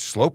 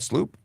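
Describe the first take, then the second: First: The name has an 'oh' vowel. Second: The name has an 'oo' vowel. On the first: The speaker calls it right. "It's Slope" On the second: The speaker calls it wrong. "not Sloop"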